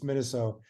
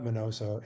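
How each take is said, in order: First: The second syllable is pronounced 'nee'. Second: The second syllable is pronounced 'no'. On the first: The speaker calls it right. "it's Miniso" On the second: The speaker calls it wrong. "not Minoso"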